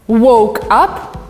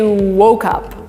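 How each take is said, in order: First: The two words are said separately. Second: The two words run together as one.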